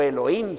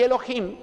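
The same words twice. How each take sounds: First: The h is soft, not a throaty j. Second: The h is a harsh, throaty j sound.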